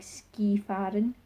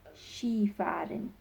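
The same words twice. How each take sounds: First: The start is said just as it is spelled. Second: The start is said differently from its spelling. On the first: The speaker calls it wrong. "it's still spelled as ski, so it looks like skifahren" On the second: The speaker calls it right. "but the pronunciation is Skifahren"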